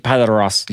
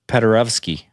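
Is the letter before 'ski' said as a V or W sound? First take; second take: W; V. First: The letter before ski sounds like W. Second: The letter before ski sounds like V.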